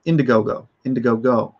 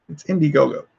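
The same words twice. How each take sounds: First: Indiegogo with the middle reduced, "INDA-go-go"; mimicking someone's odd "Indiegogo"; imitated odd pronunciation. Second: Said in the usual way. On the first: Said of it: "he says it really weird". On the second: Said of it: "but he says it really weird".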